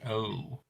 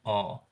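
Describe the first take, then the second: First: The vowel glides from O toward U. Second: The vowel stays steady without gliding. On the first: The speaker calls it right. "it's like an O U sound, like O" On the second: The speaker calls it wrong. "not an O"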